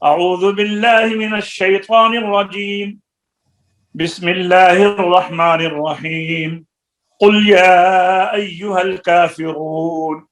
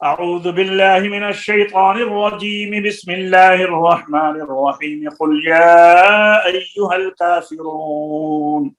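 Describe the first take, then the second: First: Chanted recitation with every verse set apart; each verse separate. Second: Chanted recitation with every verse joined; joined in one breath. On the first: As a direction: recite with a clear pause and a fresh breath after every verse. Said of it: "दूसरा है फस्ले जमी". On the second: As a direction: recite all three verses in one breath, no pauses between. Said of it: "पहला है वस्ले जमी". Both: Shown as a demonstration.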